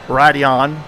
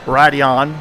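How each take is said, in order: First: It is said with an American accent. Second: The same.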